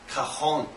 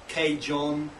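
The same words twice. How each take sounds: First: The word is said in a Spanish way. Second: The word is said in a non-Spanish way. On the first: The speaker calls it right. "really the Spanish pronunciation is Cajon" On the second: The speaker calls it wrong. "a lot of people pronounce it as Cajon"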